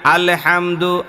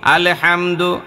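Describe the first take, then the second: Both takes have the same delivery.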